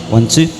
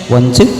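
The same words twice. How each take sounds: Both takes have the same delivery.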